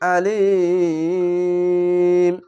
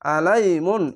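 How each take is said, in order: First: The word ends with a bare 'm' sound. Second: The word ends with a full 'mun' sound. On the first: The reader stops on this word. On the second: The reading continues without stopping.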